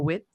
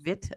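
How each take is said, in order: First: The word begins with a W sound. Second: The word begins with a V sound. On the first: "instead of a wit" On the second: "I think it's called Vit"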